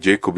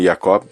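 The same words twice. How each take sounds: First: The name begins with a 'j' sound. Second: The name begins with a 'y' sound.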